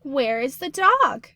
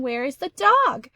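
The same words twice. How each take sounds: First: Slow, louder question read; slow demo of a question; asking voice. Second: Louder, raised question read. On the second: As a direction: raise your voice to ask it. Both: Shown as a demonstration. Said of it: "we would need to raise our voice in question".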